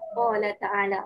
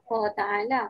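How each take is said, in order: First: The first word's second syllable is pronounced. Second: The first word's second syllable is dropped. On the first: The speaker calls it right. "La jangan tinggal eh" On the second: The speaker calls it wrong. "tak naklah Qa ta'ala"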